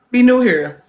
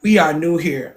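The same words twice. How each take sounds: First: "new" punched higher and louder; emphatic repeat. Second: Said in the usual way. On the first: Shown as a demonstration. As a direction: lean hard on "new".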